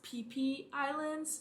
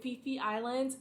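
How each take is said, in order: First: The name begins with a P sound. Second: The name begins with an F sound. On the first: The speaker calls it right. "It's pronounced P P Islands" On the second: The speaker calls it wrong. "I've been calling it Fifi Islands"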